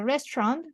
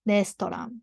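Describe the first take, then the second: First: It is pronounced with English sounds. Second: It is pronounced with Japanese sounds.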